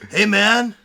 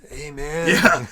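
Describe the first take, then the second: First: It is said in a more natural voice. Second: It is said in an exaggerated cartoon voice. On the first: The speaker calls it right. "That's great" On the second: The speaker calls it wrong. "eighties cartoon Rick"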